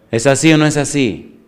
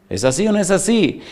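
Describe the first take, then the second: First: Said in the usual way. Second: Same question again, pitched higher and pressing; higher repeat. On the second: Real, not acted. Pastor pressing the congregation for agreement, higher. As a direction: push the question up to get an answer.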